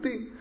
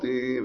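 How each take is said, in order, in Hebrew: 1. הצליל נקטע מהר מאוד. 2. הצליל נמשך זמן רב. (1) "ויש נקודה" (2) "קו זה צפצוף ארוך"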